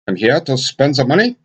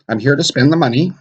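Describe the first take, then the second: First: It is said with a German accent. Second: It is said with a plain American accent. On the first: The speaker calls it wrong. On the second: The speaker calls it right.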